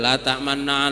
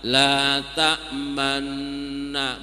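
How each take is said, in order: First: It is rushed through with no lip rounding. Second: The lips round briefly on the doubled nasal. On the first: The speaker calls it wrong. "main seruduk aja" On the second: The speaker calls it right. "Mulut kita pas dulu di sini, monyongin dikit, balik lagi"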